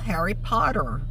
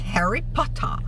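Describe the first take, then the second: First: The t is softened into a quick flap. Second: The t is pronounced clearly and crisply.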